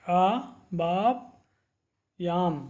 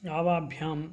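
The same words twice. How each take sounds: First: आवाभ्याम् stretched into slow syllables, आ-वा-भ्याम्. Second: Said in the usual way. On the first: Shown as a demonstration. Teacher models pronunciation for students, slowly syllabic. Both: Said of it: "इस प्रकार से आपको इन शब्दों का उच्चारण करना है".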